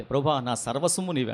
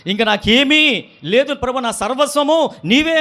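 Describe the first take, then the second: First: Soft, hushed devotion; hushed prayer line; quiet prayer. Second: Louder, slow, pleading prayer; preacher voicing a believer's fervent surrender. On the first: Retold or imitated. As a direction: murmur it to God. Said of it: "అంట". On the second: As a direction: cry it out to God slowly. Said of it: "అంటాం".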